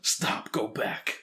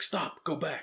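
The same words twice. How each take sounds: First: Hammed-up Hollywood action American; bad American accent. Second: A hammed-up Hollywood American "Stop, go back"; mock movie-trailer American, pitched up; bad American accent. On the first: Shown as a demonstration. Co-host asks, he repeats it in a bad American accent. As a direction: redo the cheesy American movie line on request. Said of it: "do it again". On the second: Podcast host spoofing the scientists in a bad American accent. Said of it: "that was terrible accent".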